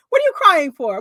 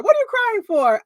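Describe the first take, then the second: First: Louder, pushy question; louder asking why she cries; mock demanding question. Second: Much higher, exasperated repeat; higher, louder disbelieving repeat; mock high exasperated question. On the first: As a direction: press her for an answer. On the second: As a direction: push the pitch up on the repeat. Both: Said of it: "Margaret's asking her".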